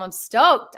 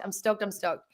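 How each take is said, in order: First: Excited. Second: Quiet. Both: Real, not acted.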